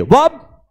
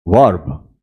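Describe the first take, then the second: First: वब punched higher, with the R left out; silent R. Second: वर्ब low, with a clear R before the B; sounded R. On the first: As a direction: say वब with no R before the B. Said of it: "आर silent कर दो". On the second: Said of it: "अंतर देखिए". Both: Shown as a demonstration.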